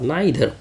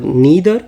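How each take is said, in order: First: The first vowel sounds like 'eye'. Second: The first vowel sounds like 'ee'. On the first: "some people call नाइदर" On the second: "some people call नीदर"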